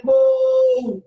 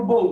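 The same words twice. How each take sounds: First: বউ called out long and loud, fondly; affectionate call. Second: Said in the usual way. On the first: Shown as a demonstration. Husband fondly calling his wife, a long, affectionate call. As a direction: draw the vowel of বউ right out, lovingly. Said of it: "এখন বউরে যদি আপনি এখন আদর করে ডাকেন". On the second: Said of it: "আদর করে ডাকেন".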